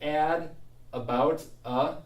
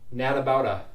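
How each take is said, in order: First: The words are said separately without linking. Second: The N sound links onto the following word.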